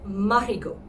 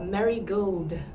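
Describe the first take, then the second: First: The name ends with a 'go' sound. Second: The name ends with a 'gold' sound. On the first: The speaker calls it right. "it will sound something like Marigaux" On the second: The speaker calls it wrong. "Sounding almost like the flower"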